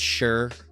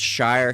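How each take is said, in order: First: It is said like the word 'sure'. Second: It is said like the word 'shire'. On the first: This is how it is said in England. "but there it's Sure" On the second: This is the local way of saying it. "it's pronounced Shire here"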